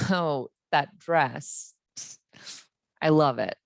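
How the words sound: The voice sounds unexcited and unhappy. "Not very excited or happy"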